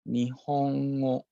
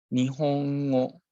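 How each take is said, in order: No difference in how they are said.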